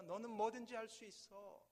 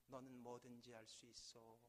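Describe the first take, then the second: First: Louder, raised call of encouragement; full-voiced shout. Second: Softer distant echo; faint echo. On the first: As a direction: shout with all your voice. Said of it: "목청이 다해서 다시 한번 외치기". (목청껏 외치는 아버지) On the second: Acted. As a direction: let it come back quietly from far. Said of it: "저 멀리서". (멀리서 돌아오는 메아리)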